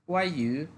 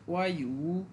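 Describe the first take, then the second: First: The vowel of the second syllable is light. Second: The vowel of the second syllable is full. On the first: The speaker calls it right. "এই ইটাকে একবারে হালকা বলে" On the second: The speaker calls it wrong. "অনেকে সহজ করে বলার জন্য এটাকে এভাবেও বলে"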